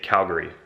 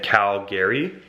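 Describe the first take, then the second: First: The ending does not sound like Gary. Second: The ending sounds like the name Gary. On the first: Locals say it this way. "But we say Calgary" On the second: Other Canadians say it this way. "almost like the name Gary"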